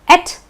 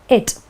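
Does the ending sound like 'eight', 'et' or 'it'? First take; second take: et; it. First: The ending is said like 'et'. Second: The ending is said like 'it'. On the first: "pronounced as et" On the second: "or it"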